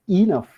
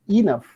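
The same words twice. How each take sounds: Both takes have the same delivery.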